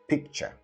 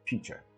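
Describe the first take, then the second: First: Every consonant of the word is said. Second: A consonant is dropped from the word. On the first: The speaker calls it right. "instead of" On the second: The speaker calls it wrong. "syllables and consonants are deleted"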